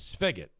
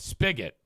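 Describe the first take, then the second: First: The sound after the S is like an F. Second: The sound after the S is a hard P. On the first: The speaker calls it wrong. "S P H. Am I pronouncing that wrong? Yeah, I think I am" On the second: The speaker calls it right. "S P I G"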